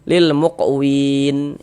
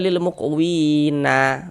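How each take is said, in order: First: The word ends on a silent n consonant. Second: The word ends with an added a vowel. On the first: The speaker calls it right. "kalau kita berhenti di huruf nun kita baca lil muqwin" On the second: The speaker calls it wrong. "Jangan dibaca lil muqwina baru berhenti begitu"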